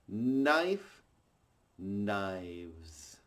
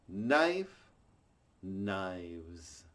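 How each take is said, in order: The two takes are said the same way.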